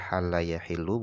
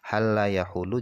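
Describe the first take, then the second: First: The verb's middle vowel is an i sound. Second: The verb's middle vowel is a u sound. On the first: "Boleh dibaca kasroh" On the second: "boleh dibaca dhammah"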